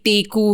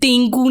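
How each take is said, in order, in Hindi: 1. यह बिना नासिका ध्वनि के बोला जाता है। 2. यह नासिका ध्वनि के साथ बोला जाता है। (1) "टेकू होता है" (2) "टेंकू नहीं होता"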